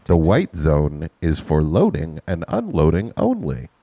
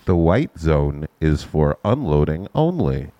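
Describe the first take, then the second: First: Slow, measured PA announcement; airport announcement. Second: Airport announcement. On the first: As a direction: read it like the terminal loudspeaker. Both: Shown as a demonstration. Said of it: "Let me, let me do something".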